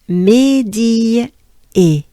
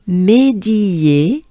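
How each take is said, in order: First: The two vowel sounds are said separately. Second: The two vowel sounds merge into one.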